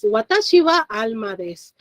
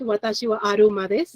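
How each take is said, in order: First: Said in the usual way. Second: "aruma" said the Japanese way, with an r in place of the l; Japanese accent. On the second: Shown as a demonstration. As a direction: Japanese pronunciation of "Watashi wa aruma desu" with r for l. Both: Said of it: "or with the Japanese accent".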